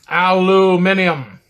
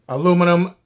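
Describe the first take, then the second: First: It is said the British way, five syllables. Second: It is said the American way, four syllables.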